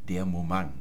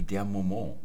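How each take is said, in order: First: The word ends in a hard ng sound. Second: The word ends in a French nasal vowel. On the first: "ähnlich wie beim Skat, wo man nicht grand, sondern krang sagt" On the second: "man hat der Moment auch französisch ausgesprochen"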